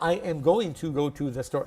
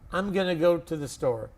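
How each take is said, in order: First: Every word is said fully and separately. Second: 'Going to' is reduced to 'gonna'. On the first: The speaker calls it wrong. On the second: The speaker calls it right. "it is called fast English"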